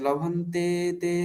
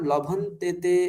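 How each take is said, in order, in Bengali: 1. e স্বরটি দীর্ঘ ও টানা। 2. e স্বরটি হ্রস্ব ও হালকা। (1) "এটা বললে ছন্দটা মিলবে না" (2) "উচ্চারণের সময় আমরা লভন্তেতে এরকম বলব"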